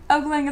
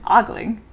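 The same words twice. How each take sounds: First: The first vowel is a long O sound. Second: The first vowel is an open ah sound. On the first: "a common way to pronounce it with a long O sound" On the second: "ah, ah, like father or pawn"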